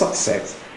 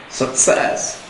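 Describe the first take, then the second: First: The stress is on the first syllable. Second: The stress is on the second syllable. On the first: The speaker calls it wrong. "the stress is on the first syllable" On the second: The speaker calls it right. "the stress falls on the second syllable"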